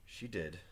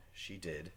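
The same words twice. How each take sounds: The two takes are said the same way.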